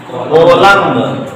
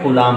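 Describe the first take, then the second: First: कोलम्ब said slowly as spelled, ko-lumb with the b sounded; कोलम्ब drawn out slowly, every letter sounded including the final b; spelled-out reading. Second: कूलाम said as koo-laam with the b silent; कूलाम, as it is really pronounced, koo-laam; actual pronunciation. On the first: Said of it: "ऐसा लिखते हैं". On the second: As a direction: give the real reading of कूलाम, long oo, b dropped. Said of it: "कूलाम पढ़ते हैं". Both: Shown as a demonstration.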